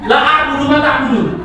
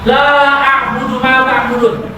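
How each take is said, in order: First: The vowel in la is cut short. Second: The vowel in la is held long. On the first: I do worship what you worship. The speaker calls it wrong. "Kalau kalian baca pendek" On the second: I do not worship what you worship. The speaker calls it right. "Itu kalau kalian baca panjang sesuai dengan kaidah ilmu tajwid"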